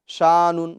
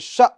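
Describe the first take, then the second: First: The vowel is drawn out with no catch. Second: The vowel is cut off with a sharp catch. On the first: The speaker calls it wrong. "इस तरह नहीं पढ़ेंगे हम" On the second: The speaker calls it right. "बल्कि"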